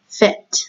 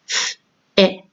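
First: The word is said as one smooth unit. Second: The word is split into separate sounds.

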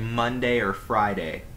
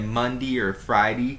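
First: The day endings have a full A vowel. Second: The day endings have a reduced vowel. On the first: "You gotta emphasize the A" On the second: "Some people say Monday or Friday"

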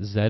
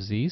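First: The letter is said as zed, Canadian style. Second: The letter is said as zee, American style.

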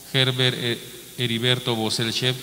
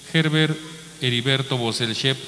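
No difference in how they are said.

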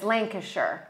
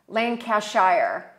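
First: The ending is said shortened and reduced. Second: The ending is said fully, as written. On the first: The speaker calls it right. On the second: The speaker calls it wrong.

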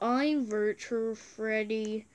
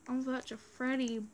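First: It is said in a robotic Virtual Freddy voice. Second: It is said in the speaker's normal voice.

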